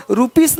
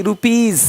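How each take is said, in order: First: "रुपीज" said short as roo-pis; "रुपीज" with s in place of z; wrong s ending. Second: "रुपीज" as roo-peez, with final z; "रुपीज" with long ee and z; z ending. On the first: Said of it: "रुपीज नहीं". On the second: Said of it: "ज का sound आ रहा है". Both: Shown as a demonstration.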